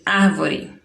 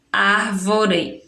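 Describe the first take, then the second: First: Said in the usual way. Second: "árvore" said slowly, syllable by syllable; teacher splitting the word; slow syllable separation. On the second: Shown as a demonstration. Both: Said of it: "vamos separar a sílaba".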